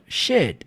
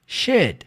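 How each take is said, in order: Both takes have the same delivery.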